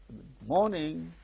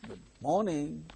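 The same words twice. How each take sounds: First: The word morning carries the stress. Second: The word morning carries the stress.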